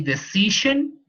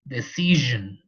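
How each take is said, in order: First: The middle consonant is a voiceless sh sound. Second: The middle consonant is a voiced zh sound. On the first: The speaker calls it wrong. "We don't say" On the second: The speaker calls it right. "We say"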